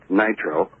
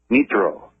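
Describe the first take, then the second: First: It is said with an English pronunciation. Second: It is said with a Japanese pronunciation. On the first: "in English it's nitro" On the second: "but in Japanese it's nitro"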